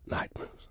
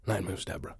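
First: Breathy whisper of the song title. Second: Said in the usual way. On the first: Acted. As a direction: whisper it like a sacred secret. Dramatic reveal of the song.

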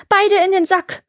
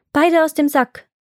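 First: High, desperate cry; urgent call. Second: Higher-pitched magic command; commanding call. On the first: Iwan orders the sticks back, urgent call. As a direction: call it out high, as if being beaten. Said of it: "nach Luft schnappen und rufen". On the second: Iwan orders the helpers from the sack, commanding call. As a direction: call it out firmly. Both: A narrator's reading.

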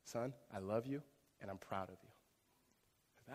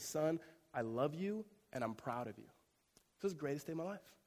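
First: Soft, slow father's blessing, lower and softer; tender father's words. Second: Father's proud words. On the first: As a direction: say it softly, like a dad holding his son close. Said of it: "he says". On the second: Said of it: "looks him in his face and says". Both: Retold or imitated.

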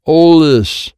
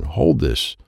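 First: Loud, high shout; shouted order. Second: Said in the usual way. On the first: A narrator's reading. Child handing Wyatt a card, shouted order. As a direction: shout "hold this" as an urgent order.

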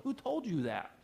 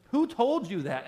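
First: Said in the usual way. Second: Louder, higher challenge. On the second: Real, not acted. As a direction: raise it, a loud high demand.

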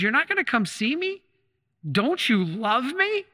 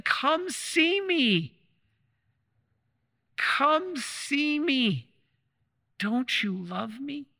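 First: High, wounded, slowing down on the plea; a stung husband asking if he's loved; hurt disbelief. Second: Very slow, high and tender, drawn-out longing; gentle plea. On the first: Retold or imitated. Husband in hospital to his wife, hurt and disbelieving, rising high. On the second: Acted. The Lord in the tabernacle to the faithful, a slow tender plea.

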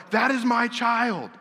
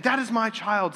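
First: High, slow insistent woman's voice; claiming woman. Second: Lightly voiced woman, pitched up; claiming woman. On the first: Retold or imitated. Woman claiming the baby before King Solomon, high slow insistence. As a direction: plead it slowly, pitched up like the desperate mother. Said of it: "the one who doesn't have the child's like". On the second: Woman claiming the child before Solomon, pitched-up insistence. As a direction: insist on it, higher than your own voice. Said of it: "the woman who's saying".

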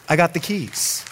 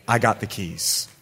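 First: "I got the keys" pitched up, with punch on "got"; emphatic repeat. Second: Low, quiet statement as God; understated divine assurance. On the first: God insisting to a believer that "I got the keys", raised and emphatic. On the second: God reassuring a believer about an opened door, low and understated. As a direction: say it low and softly, letting it sink. Preacher voicing God, first take. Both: Acted.

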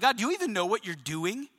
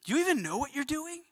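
First: Understated challenge to God; doubting question. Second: Softer, higher-pitched disbelief; incredulous question. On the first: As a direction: question God with mild disbelief. Acting a doubting believer questioning God. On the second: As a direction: ask it plaintively, pitched up and held back. Repeats the doubting question to God. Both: Acted.

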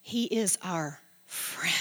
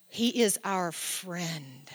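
First: Slow whispered repeat. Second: Slow and soft, tender. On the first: Pastor repeats it to the church, whispered. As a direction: breathe it as a whisper. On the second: Pastor tells the congregation softly, tender. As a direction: say it gently, like a secret comfort. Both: Real, not acted.

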